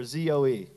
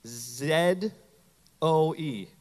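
First: Z said as "zee", then O E; American letter name. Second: Z said as "zed", then O E; British letter name. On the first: Pastor respelling Zoe for the congregation, Z as "zee". Second way of spelling it. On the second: Pastor spelling Zoe for the congregation, Z as "zed". Spells the word two ways. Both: Shown as a demonstration.

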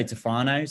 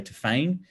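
First: Tafane said tuh-FAH-nay; speaker's own pronunciation. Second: Tafane said tuh-FAYN; other people's pronunciation. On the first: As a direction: say Tafane in three syllables, FAH-nay at the end. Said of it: "I, I say Tafane". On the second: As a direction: say Tafane in two syllables, rhyming with feign. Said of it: "some people say Tafane". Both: Shown as a demonstration.

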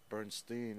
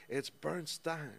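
First: "Bernstein" ending in -steen; second syllable of "Bernstein" rhyming with seen; mispronounced Bernstein. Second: "Bernstein" ending in -stine, higher and drawn out; "Bernstein" rhyming its ending with fine; correcting pronunciation. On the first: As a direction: say "Bernstein" wrongly, as BERN-steen. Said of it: "made the mistake of saying". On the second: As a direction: correct them slowly with BERN-stine. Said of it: "she goes". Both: Retold or imitated.

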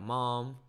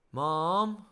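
First: Said in the usual way. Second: High, loud call down the hall; child calling mum through a closed door. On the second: Retold or imitated. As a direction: call her from another room.

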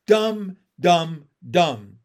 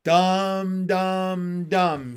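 First: Jab the turtle with every DUMB; loud, staccato "dumb, dumb, dumb"; punchy taunt. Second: Sustained "dumb, dumb, dumb", falling at the end; drawn-out verdict. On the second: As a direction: stretch each DUMB like a chant. Frog's closing verdict on turtle. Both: A narrator's reading.

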